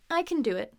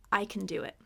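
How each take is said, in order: First: Can in I can do it with a full short A. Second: Can in I can do it as kun with a schwa; reduced can. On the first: Teacher shows the unreduced form, full can. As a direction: give can its full vowel. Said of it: "if you wanna emphasize it". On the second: Teacher shows the everyday reduced form, reduced can. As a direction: keep can light and unstressed, kun. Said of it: "Can gets reduced". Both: Shown as a demonstration.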